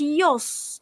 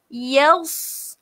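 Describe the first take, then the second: First: The vowel is thick, like o. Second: The vowel is thin, like a. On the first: The speaker calls it wrong. "Jangan kita baca yos. Tak boleh" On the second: The speaker calls it right. "kita kena betulkan baris dia tu"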